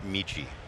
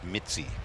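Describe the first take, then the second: First: The middle consonant sounds like 'ch'. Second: The middle consonant sounds like 'ts'. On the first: The speaker calls it wrong. "not Michi" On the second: The speaker calls it right. "It's Mitzi's Express"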